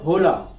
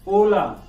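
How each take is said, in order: First: The h at the start is pronounced. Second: The h at the start is silent. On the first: The speaker calls it wrong. "not hola" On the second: The speaker calls it right. "La letra H is the only silent letter"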